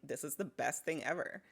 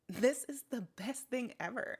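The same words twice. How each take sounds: First: The words are said with relaxed, everyday emphasis. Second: The words are stressed somewhat, still a bit unnatural. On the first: The speaker calls it right. "This is more like me" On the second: The speaker calls it wrong. "even that can still sound not supernatural"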